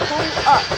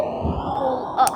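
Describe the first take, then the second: First: Said in the usual way. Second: Whispered urging. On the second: Pretend. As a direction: Pull up whispered urgently, no voice. Urging a toy vehicle upward.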